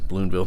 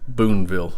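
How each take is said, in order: First: The name is said with an extra L. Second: The name is said without an extra L. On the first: The speaker calls it wrong. "I think I pronounced it with an L in there" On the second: The speaker calls it right. "This should be Boonville"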